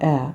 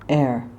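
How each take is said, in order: First: The R sound is dropped. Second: The R sound is clearly pronounced. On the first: The speaker calls it wrong. "It's not air" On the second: The speaker calls it right. "it's air"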